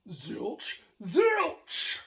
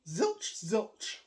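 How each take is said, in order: First: The second word is said louder. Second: Both words are at the same loudness.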